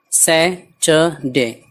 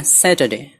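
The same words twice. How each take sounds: First: Saturday very slowly, in three separate pieces; syllable by syllable. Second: Said in the usual way. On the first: Shown as a demonstration. Teacher breaking down a weekday, Saturday syllable by syllable. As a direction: split Saturday into sai, ta, de with gaps. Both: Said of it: "इन सबको मिला देना".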